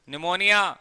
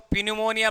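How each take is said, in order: First: The word begins with an n sound. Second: The word begins with a p sound. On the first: The speaker calls it right. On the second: The speaker calls it wrong.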